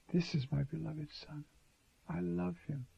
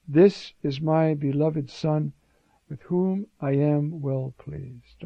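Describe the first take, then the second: First: Much softer, intimate and loving; tender Father. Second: Slow, weighty proclamation; solemn divine voice. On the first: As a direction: say it gently, like a father's love. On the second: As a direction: announce it slowly like a voice from heaven. The voice from the cloud. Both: Retold or imitated.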